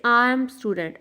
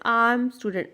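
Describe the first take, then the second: No difference in how they are said.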